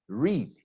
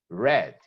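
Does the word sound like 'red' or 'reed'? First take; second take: reed; red. First: The word is said with a long 'ee' vowel. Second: The word is said with a short 'e' vowel. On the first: The action happens now or habitually. "In the present, we say read" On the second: The action happened in the past. "In the past, we say read"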